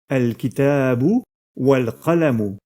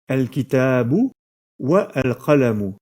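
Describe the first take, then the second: First: The 'a' of 'al' is dropped, linking to 'wa'. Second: The 'a' of 'al' is pronounced, with no linking. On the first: The speaker calls it right. "On dira donc bien" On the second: The speaker calls it wrong. "et non pas"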